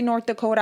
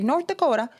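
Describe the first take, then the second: First: It is said in a plain, ordinary accent. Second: It is said in a put-on, Mario-like accent. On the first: "every time I say North Dakota" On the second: "I want to say North Dakota? ... like Super Mario"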